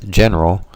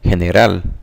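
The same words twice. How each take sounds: First: The word begins with a J sound. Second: The word begins with an H sound. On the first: "the G in the word general sounds like the J in the name Jason" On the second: "the G has a H sound"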